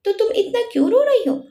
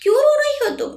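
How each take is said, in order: First: Mildly loving question, raised in pitch; narrated gentle concern, understated; lovingly. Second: Much higher-pitched angry outburst; narrated angry demand, pitched sharply up. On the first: Arijit asks crying Chanchal what is wrong, lovingly. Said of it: "फिर प्यार से बोला". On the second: Arijit confronts crying Chanchal by the car, angry. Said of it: "गुस्से में". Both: A narrator's reading.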